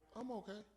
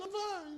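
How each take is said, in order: First: It is said low, mellow and downcast. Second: It is said high, bright and upbeat.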